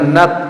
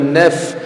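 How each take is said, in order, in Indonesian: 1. Bunyi f-nya pendek, tanpa aliran hembusan nafas. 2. Bunyi f-nya ada hembusan nafas yang terdengar keluar. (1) "jangan naf" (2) "Huruf fa itu ada hemsnya, jadi ada hembusan nafas yang mengalir"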